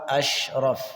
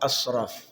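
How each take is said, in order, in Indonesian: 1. Konsonan di tengah itu bunyi sh yang biasa. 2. Konsonan di tengah itu s emfatik yang berat. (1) "Jadi harus tepat asyraf" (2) "sekarang tertukar dengan shad"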